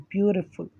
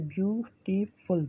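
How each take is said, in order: First: Said in the usual way. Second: ब्यूटीफुल slowed and softer, each syllable separated; syllables spelled out. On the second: Shown as a demonstration. Teacher showing the class, ब्यूटीफुल broken into syllables. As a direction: stretch ब्यूटीफुल into three clear parts. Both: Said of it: "ये stop जो बीच में आ रहा है".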